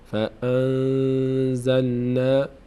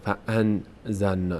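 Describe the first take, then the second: First: The n is hidden in the nose and held. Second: The n is pronounced fully and clearly. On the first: The speaker calls it right. "اینجا باید مخفی بشه این در بینی. ... یک مقداری وای میستیم روش" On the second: The speaker calls it wrong. "نمیگیم فان زلنا فان زلنا، نه، از مخرج خودش ادا نمیشه"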